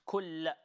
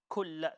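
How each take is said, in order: No difference in how they are said.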